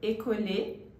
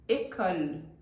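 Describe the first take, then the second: First: The final e is pronounced aloud. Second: The final e is silent. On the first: The speaker calls it wrong. "a pronúncia nunca vai ser école" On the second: The speaker calls it right. "e sim école"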